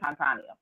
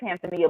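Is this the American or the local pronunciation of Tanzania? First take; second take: local; American. First: It is said the way local people pronounce it. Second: It is said the way Americans pronounce it. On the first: "but they do say Tanzania" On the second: "us Americans say Tanzania"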